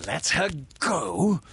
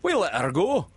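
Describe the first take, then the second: First: Loud, high rising question; incredulous cry. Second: High, loud sidekick voice, pleased; complacent. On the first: Hook hearing his captive was freed, crying out. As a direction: throw it back as an outraged question. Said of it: "cried Hook". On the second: Smee answering what he takes for a joke, complacent. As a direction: say it complacently in a raised character voice. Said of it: "Smee answered complacent". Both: A narrator's reading.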